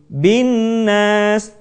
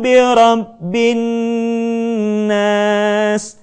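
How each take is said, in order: First: The nasal sound is cut short and rushed. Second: The nasal sound is held for several beats. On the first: The speaker calls it wrong. "Kita tidak membacanya dengan tergesa-gesa menjadi" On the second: The speaker calls it right. "tetapi tahan suara kita"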